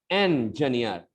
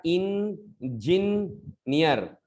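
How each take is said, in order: First: "इंजीनियर" as en-juh-niyar; corrected pronunciation. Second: "इंजीनियर" chopped slowly as in... jin... niyar; wrong pronunciation demo. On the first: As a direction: start "इंजीनियर" with EN and a short juh. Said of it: "नहीं बोलना है". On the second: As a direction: stress a clear jin inside "इंजीनियर". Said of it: "गलत pronunciation है वो कैसे". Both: Shown as a demonstration.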